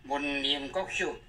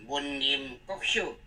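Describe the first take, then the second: No difference in how they are said.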